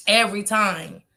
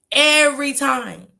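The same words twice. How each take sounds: First: Said in the usual way. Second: Slower, louder, higher repeat of "Every time."; emphatic. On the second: Real, not acted. Insisting to the chat, slow and emphatic. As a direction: drag out "Every time" for weight.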